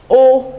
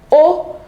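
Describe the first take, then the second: First: O held level on a mid tone; level mid-tone Yoruba O. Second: O on a raised high tone; high-tone Yoruba O. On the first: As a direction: say O evenly at mid pitch, as in Yoruba "you". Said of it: "the rest carry the mid tone". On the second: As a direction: say O pitched up high, as in Yoruba "he or she". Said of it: "there is an I tone on this one". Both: Shown as a demonstration.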